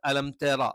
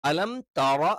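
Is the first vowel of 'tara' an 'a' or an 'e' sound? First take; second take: e; a. First: The first vowel of tara sounds like e. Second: The first vowel of tara sounds like a. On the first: The speaker calls it wrong. "തേ ആയി പോകരുത്" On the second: The speaker calls it right. "തറ എന്ന് തന്നെ കറക്റ്റ് വേണം"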